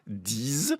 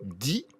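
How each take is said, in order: First: The word ends with a z sound. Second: The word ends with no consonant sound. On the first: It comes before a word starting with a vowel. "si je veux dire dix amis" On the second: It comes before a word starting with a consonant. "si je veux dire dix mille"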